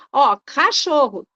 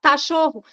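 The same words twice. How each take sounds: First: "cachorro" spoken slowly and clearly with a firm k; slow correct model. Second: "tachorro" with a t in place of the k; child's error. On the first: Mother correcting her child once, gently and slowly. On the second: The child answering his mother with a t sound. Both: Shown as a demonstration. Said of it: "Você pode corrigir uma vez".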